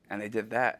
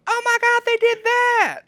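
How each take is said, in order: First: Said in the usual way. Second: Put-on high, loud squeal of excited kids; thrilled kids. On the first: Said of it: "And then Justin goes". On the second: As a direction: shriek it like kids who can't believe it. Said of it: "And they go".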